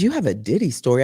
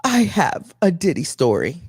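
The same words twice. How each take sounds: First: Low, fast, deadpan repeat; deadpan incredulous echo; flat disbelief. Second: Lightly voiced friend, eager; a hint of the friend's eager tone; friend's eager confession. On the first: Retold or imitated. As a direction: throw it back, unimpressed and sceptical. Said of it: "I said". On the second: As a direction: say it like a big reveal. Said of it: "And she goes".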